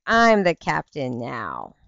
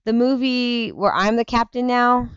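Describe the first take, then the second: First: Slow, dramatic quote of the line; movie quote. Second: Said in the usual way. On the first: Retold or imitated. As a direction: deliver the movie line slowly and gravely. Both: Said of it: "It's like".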